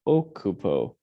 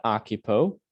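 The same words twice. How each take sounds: First: OH-coo-po, falling at the end; corrected Occupo. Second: AH-kyu-po, English vowels in occupo; wrong occupo. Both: Shown as a demonstration. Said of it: "not occupo".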